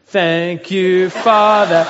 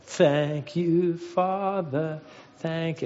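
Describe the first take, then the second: First: Loud, drawn-out mock child's prayer; praying girl. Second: Lightly imitated pious little girl praying; drawn-out, reverent child's grace, gently acted; mock pious. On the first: Josie praying aloud for her hurt sister, loudly hammed-up. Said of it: "So then Josie goes". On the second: Middle child leading grace at the family table, piously. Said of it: "very piously and was like".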